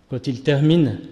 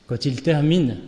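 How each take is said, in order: No difference in how they are said.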